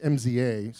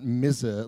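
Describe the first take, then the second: First: The name is spelled out letter by letter. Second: The name is said as one single word. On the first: The speaker calls it right. "It's MZA" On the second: The speaker calls it wrong. "not MZA, like the rapper [name]"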